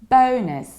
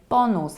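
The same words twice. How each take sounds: First: It is said with a rounded English o sound. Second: It is said with a Polish-sounding first vowel. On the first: The speaker calls it right. "we should say bonus" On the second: The speaker calls it wrong. "many people pronounce it in a very Polish way"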